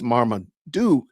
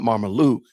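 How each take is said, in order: First: "Marmaduke" said slowly with a clear d in "duke"; correct name. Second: "Marmaluke" said with an l in place of the d; wrong name. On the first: Defending his favorite comic dog, careful "Marmaduke". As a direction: stress the d sound in "Marmaduke". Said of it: "not Marmaluke". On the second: Correcting a viewer, wrong version "Marmaluke". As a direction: say "Marmaluke" with an l in "luke". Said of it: "it's Marmaduke". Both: Shown as a demonstration.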